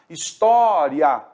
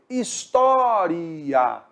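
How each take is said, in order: First: The final vowels glide together into one syllable. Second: The final vowels are split into two syllables. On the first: "a pronúncia é uma ditongação, que é o normal" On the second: "como se tivesse um hiato ali"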